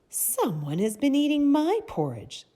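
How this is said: The voice is sweet, light and soft. A mother bear is speaking. "in her sweet, soft voice"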